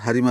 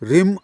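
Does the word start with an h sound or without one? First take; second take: with h; without h. First: The word starts with an h sound. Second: The word starts without an h sound. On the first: The speaker calls it right. "परंतु याचा उच्चार हरीम असा करायचा आहे" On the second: The speaker calls it wrong. "हरीमचा उच्चार रिम इथं असं म्हटलं जातं"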